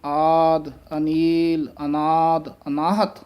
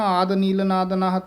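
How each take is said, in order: First: Each word is separated by a pause. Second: The words are run together without pauses.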